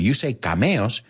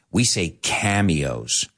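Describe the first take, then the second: First: Cameos said ka-ME-os, Spanish vowels. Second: Cameos said KAM-ee-ohz, slow; English cameos. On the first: Teacher showing students how they pronounce cameos. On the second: Teacher showing the English way to say cameos. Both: Shown as a demonstration.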